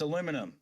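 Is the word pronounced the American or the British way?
American. It has four syllables, the American way. The speaker calls it right. "It's got one eye"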